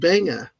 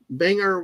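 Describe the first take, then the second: First: The word ends without an R sound. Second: The word ends with an audible R sound.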